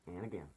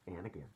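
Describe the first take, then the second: No difference in how they are said.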